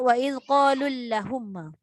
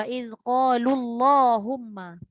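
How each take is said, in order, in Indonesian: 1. Huruf L-nya tipis dan vokalnya pendek. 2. Huruf L-nya tebal dan vokalnya panjang. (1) "Dah satu hal tak tebal, satu hal lagi dia jadi pendek" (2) "Tu yang saya sebut tu"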